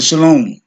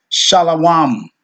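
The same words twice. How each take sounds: First: Shalom with a long O, pitched up; rejected pronunciation. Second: Shalawam with open A vowels, no O; preferred pronunciation. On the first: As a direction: say "shalom" as sha-LOHM. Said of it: "instead of shalom". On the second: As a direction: say "shalawam" as sha-la-WAHM. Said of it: "just like we say". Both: Shown as a demonstration.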